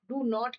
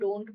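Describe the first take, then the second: First: It is said in full as two syllables. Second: It is shortened to a single syllable. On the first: "डू नॉट की जगह" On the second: "हम डोंट बोल देते हैं"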